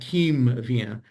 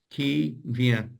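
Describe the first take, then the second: First: A full M sound is made before vient. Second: The M sound is only lightly touched. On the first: The speaker calls it wrong. "Not quim vient" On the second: The speaker calls it right. "lightly touch for the M sound"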